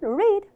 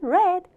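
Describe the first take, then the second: First: It is said in the present-tense pronunciation. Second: It is said in the past-tense pronunciation. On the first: The action happens now or habitually. "읽다는 read" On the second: The action already happened. "읽었다는 read"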